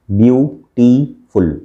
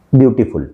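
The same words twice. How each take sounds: First: beautiful slowly in three beats, view, टी, फुल; slow three-syllable demo of beautiful; divided into syllables. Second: Said in the usual way. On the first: Shown as a demonstration. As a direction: break beautiful apart with clear pauses between syllables. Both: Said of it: "इस तरह से divide करके".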